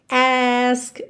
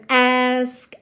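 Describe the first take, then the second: The two takes are said the same way.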